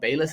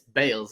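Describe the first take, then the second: First: The name is said like 'bayless', not 'bales'. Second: The name is said like 'bales', as in cricket. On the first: The speaker calls it wrong. "Biwali Bayless is not Bayless" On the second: The speaker calls it right. "it's Bales, like cricket Bales"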